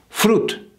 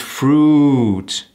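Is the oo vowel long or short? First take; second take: short; long. First: The oo vowel is short and clipped. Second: The oo vowel is drawn out and elongated. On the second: "the American ooh"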